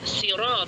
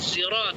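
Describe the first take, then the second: First: The word begins with an s sound. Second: The word begins with a z sound. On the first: "Ada yang membaca sirat pakai sin" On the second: "ada yang membaca pakai zai"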